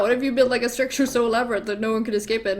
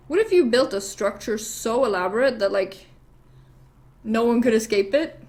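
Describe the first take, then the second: First: Fast, run-together proposal; acted rapid re-pitch; hurried repeat. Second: Measured proposal with pauses; acted hinting question, spaced out; deliberate pitch. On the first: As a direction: rattle the idea off quickly. King hurriedly repeats the same idea. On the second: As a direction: lay the idea out piece by piece. King first pitches idea, deliberately.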